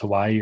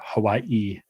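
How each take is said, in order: First: It is said smoothly with no glottal catch. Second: It has a glottal catch before the last syllable.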